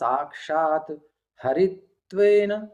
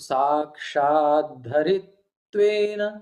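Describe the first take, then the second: First: The two words are separate, with an 'h' sound. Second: The two words are joined, with a 'dh' sound. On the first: "अलग कर देंगे तो साक्षात ... हरित्वेन" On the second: "जब मिला देंगे तो ... हा का धा हो जाएगा, ता का द"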